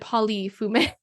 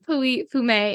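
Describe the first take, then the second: First: The double L in Pouilly is sounded. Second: The double L in Pouilly is not sounded. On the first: The speaker calls it wrong. "I said Pouilly-Fumé, and I got a little bit of criticism" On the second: The speaker calls it right. "you do not pronounce the two L's in Pouilly-Fumé"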